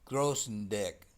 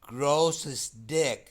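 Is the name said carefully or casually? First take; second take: casually; carefully. First: The name is said quickly and casually. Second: The name is said slowly and carefully.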